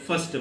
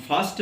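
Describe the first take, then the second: First: फर्स्ट with a short a; फर्स्ट on a brief short a, no long aa; American fast. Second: फास्ट with a long open aa; फास्ट stretched on the aa sound; British fast. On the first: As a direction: say फर्स्ट with a quick short vowel, American style. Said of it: "American वाले फर्स्ट बोलेंगे". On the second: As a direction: say फास्ट with a full broad aa, British style. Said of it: "British वाले". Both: Shown as a demonstration.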